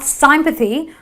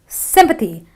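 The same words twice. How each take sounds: First: The first vowel is not a short i. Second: The first vowel is a short i sound. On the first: The speaker calls it wrong. "not sympathy or anything else" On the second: The speaker calls it right. "but it is sympathy. It's a short eh"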